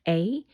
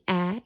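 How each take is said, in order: First: A long vowel gliding like 'ay' is heard. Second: A short, flat vowel sound is heard. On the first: "the long A" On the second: "the short A"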